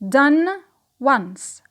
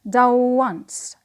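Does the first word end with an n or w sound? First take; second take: n; w. First: The first word ends with an n sound. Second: The first word runs into a long w sound.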